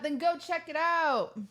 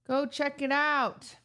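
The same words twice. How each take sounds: First: High urging. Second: Slow, drawn-out go check it out; slow repeat. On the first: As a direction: go pitched up high, pushy. Urging listeners to watch. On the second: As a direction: spell it out slowly to them. Repeating the plug slower. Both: Real, not acted.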